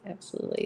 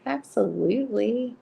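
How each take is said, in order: First: Whispered "Absolutely." with no voice. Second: Said in the usual way. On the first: Real, not acted. Repeating agreement to chat, whispered softly. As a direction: breathe "Absolutely." softly as an aside.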